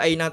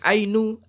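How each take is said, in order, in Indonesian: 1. Kata ini berakhir dengan vokal a. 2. Kata ini berakhir dengan vokal u. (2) "tidak boleh"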